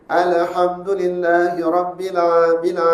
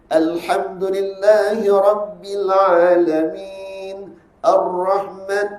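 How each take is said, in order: First: Said in the usual way. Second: Slow, drawn-out Quran reading; dragging recitation. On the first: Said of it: "jangan baca gitu dah". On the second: Shown as a demonstration. Teacher shows students the dragging style to avoid. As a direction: drag every syllable on purpose. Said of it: "ada suka menyeret".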